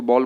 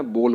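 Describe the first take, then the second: First: बॉल with an open "aa" vowel; wrong pronunciation. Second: बोल with a rounded long "o"; correct pronunciation. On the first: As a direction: say बॉल as "baal". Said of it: "ये तरीका गलत है". (बॉल में खुला आ) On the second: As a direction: say बोल like "bole". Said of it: "आपको क्या बोलना है". (बोल में गोल ओ) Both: Shown as a demonstration.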